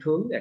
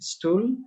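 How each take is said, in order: First: The word starts with a heavy t sound. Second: The word starts with an s sound. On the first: It means an armless seat. "আর যখন আমরা উচ্চারণ করব ঠুল" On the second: It means excrement. "When pronounced like stool, then it is something feces"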